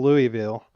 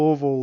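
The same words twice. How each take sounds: First: "Louisville" as "LOO-ee-vil"; outsider's Louisville pronunciation. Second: "Louisville" squeezed to "LOO-vul"; local Louisville pronunciation. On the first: Retold or imitated. Co-host quoting the Texan's mistake, "Louisville" as "LOO-ee-vil". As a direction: sound out "Louisville" in three syllables, "LOO-ee-vil". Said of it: "he did call Louisville". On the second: Shown as a demonstration. Co-host correcting himself on a slip, "Louisville" said locally as "LOO-vul". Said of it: "there's nowhere else in the world that would say it the, the, the way that we do here".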